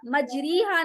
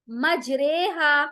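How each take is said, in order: First: मजरीहा said with a plain री, at normal pace; quick मजरीहा with an "ee" on री; wrong version. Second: मजरेहा slow and drawn out, रे tilted toward e; correct version. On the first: Teacher showing the wrong मजरीहा. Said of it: "नहीं करेंगे". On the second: Teacher giving the right मजरेहा after the wrong one. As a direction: stretch मजरेहा with the री bent to रे. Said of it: "मजरीहा नहीं करेंगे". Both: Shown as a demonstration.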